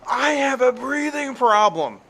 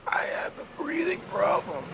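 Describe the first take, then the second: First: The sentence is screamed loudly. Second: The sentence is said quietly, without yelling. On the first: The person is faking the breathing problem. The speaker calls it wrong. "She was screaming" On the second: The person really has trouble breathing. The speaker calls it right. "They don't yell it. They don't scream it. They go"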